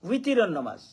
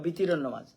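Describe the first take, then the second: First: The first word starts with a W sound. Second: The first word starts with a B sound. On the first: The speaker calls it right. "ওয়াও" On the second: The speaker calls it wrong. "উলামায়ে কেরামেও দেখা যায় কইবা"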